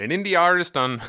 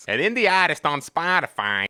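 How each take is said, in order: First: Said in the usual way. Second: Put-on eastern accent, R dropped in "artist"; playful eastern accent with a flattened "artist"; farther-east accent. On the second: Shown as a demonstration. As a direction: let the accent drift east on "indie artist". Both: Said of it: "I'm moving farther east".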